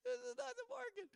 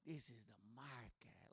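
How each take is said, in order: First: High, squeaky protest that this is not the market; exasperated tourist. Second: Low, quiet, offended insistence from the bike guy; offended local. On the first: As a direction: pipe up in disbelief, much higher. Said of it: "And I'm like". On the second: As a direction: growl it back like he's insulted. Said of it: "he gets all offended at me". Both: Retold or imitated.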